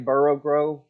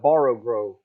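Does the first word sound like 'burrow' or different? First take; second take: burrow; different. First: The first word sounds like 'burrow' in Texan. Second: The first word does not sound like 'burrow'. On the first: "I say it wrong because of my Texas accent" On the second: "he said it's, it's a Borrow Grove"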